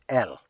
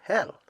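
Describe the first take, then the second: First: The word begins without an h sound. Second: The word begins with an h sound. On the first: "They usually pronounce it letter L of the alphabet" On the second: "have a problem pronouncing the word hell"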